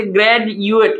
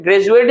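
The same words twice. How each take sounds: First: ग्रेजुएट split into three spaced parts; syllable by syllable. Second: Said in the usual way. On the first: Shown as a demonstration. Teacher counting syllables for students, ग्रेजुएट in three parts. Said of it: "इसमें से ग्रेजुएट यानी कि". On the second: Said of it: "ग्रेजुएट जो है".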